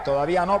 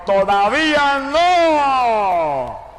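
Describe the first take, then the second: First: Said in the usual way. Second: Very slow, high, loud "¡Todavía no!" with a long drawn-out no; God's thundering command, heard in the night; booming divine voice. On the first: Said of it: "entendía". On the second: Retold or imitated. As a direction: stretch "¡Todavía no!" out slowly and thunder it. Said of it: "y la voz me gritó".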